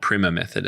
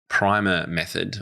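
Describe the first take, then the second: First: The word is said with the American pronunciation. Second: The word is said without the American pronunciation.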